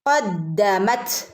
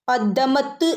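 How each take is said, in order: First: The final t is released with audible breath. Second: The final t is clipped hard without breath. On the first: The speaker calls it right. "കാറ്റ് പുറത്തേക്ക് പോകുന്ന രൂപത്തിൽ വേണം ത് ഉച്ചരിക്കാൻ" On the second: The speaker calls it wrong. "ഖദ്ദമത്ത് എന്ന് ഓതരുത്"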